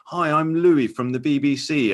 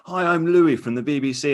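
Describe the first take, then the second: First: Slow, higher, politely earnest introduction; mock the awkward cheery hello; Louis Theroux greeting. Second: Higher, politely earnest introduction; mock the awkward cheery hello; Louis Theroux greeting. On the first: Host imitates Louis introducing himself at a door. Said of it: "doing a very good Louis". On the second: Host imitates Louis entering a polygamist community. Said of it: "he'll go in and say".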